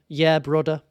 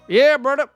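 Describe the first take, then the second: First: It is said in his normal accent. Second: It is said in a Southern hick accent.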